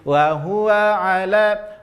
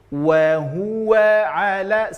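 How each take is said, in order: First: The wa starts with flat lips. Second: The wa starts with rounded lips. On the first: The speaker calls it wrong. "salah kalau kita hanya penyebutannya menjadi" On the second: The speaker calls it right. "senyum monyongkan, kemudian senyum tarik dengan mensenyumkannya"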